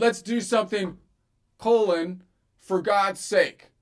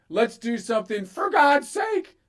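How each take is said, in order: First: A clear break comes before "for God's sake". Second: It runs on with no break before "for God's sake".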